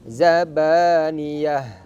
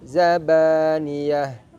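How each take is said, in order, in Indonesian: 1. Kata ini diakhiri dengan bunyi 'h'. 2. Kata ini diakhiri dengan bunyi 'h'.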